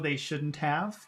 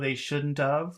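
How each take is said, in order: First: Every word is pronounced fully and clearly. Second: Some sounds are reduced and run together. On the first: "which is very nice English" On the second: "a little bit not as nice, but still okay"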